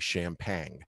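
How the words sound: It is said with a Brooklyn-style pronunciation. "when you're from Brooklyn, you will actually say"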